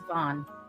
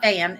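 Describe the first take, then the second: First: The vowel is the rounded 'o' of 'von'. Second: The vowel is the flat 'a' of 'van'. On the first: The speaker calls it right. "it's Von" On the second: The speaker calls it wrong. "it's not Van"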